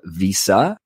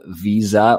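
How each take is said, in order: First: An American way, with an s-like middle sound. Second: A Canadian way, with a z-like middle sound.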